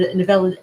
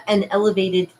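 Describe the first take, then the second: First: Evele- stumbled, syllables garbled; a fumbled try at evele-; tongue-tied slip. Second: Elevated said clearly, with a small laugh; elevated, fixed and amused; corrected with a laugh. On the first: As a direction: trip over evele- mid-word. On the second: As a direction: get elevated right, laughing at the slip. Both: Real, not acted.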